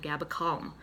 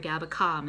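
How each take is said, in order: First: Calm is said with a standard accent. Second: Calm is said with a Boston accent. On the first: It is how the product name is normally said. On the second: It is how the speaker naturally says it.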